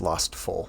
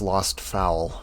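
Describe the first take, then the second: First: The last word rhymes with 'goal'. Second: The last word rhymes with 'owl'. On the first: The speaker calls it right. "but it's Lost Foal" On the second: The speaker calls it wrong. "I keep pronouncing that as Lost Fowl"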